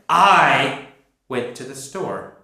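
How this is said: The word I is stressed.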